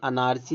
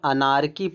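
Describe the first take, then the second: First: The ch is sounded like ch in chair. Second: The ch is sounded like a hard k. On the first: The speaker calls it wrong. "अनारची नहीं" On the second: The speaker calls it right. "यहाँ पे अनारकी पढ़ेंगे"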